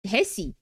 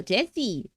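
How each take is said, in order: First: "Jesse" said as "Hessi", J turned to H; Spanish-style J. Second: "Jesse" begun with an English J sound; English-style J. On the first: Streamer guessing the Spanish name, "Jesse" as "Hessi". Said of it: "in Spanish, it would be pronounced Hesse". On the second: Streamer first trying the name, "Jesse" with a J sound. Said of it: "it would be pronounced Hesse". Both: Shown as a demonstration.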